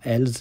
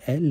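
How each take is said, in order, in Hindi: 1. यह शब्द एस की ध्वनि से खत्म होता है। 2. यह शब्द एस की ध्वनि के बिना खत्म होता है। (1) "इसको हम इल्स या एल्स नहीं पढ़ सकते" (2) "पढ़ेंगे इल और एल ही"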